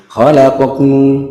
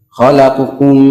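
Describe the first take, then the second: No difference in how they are said.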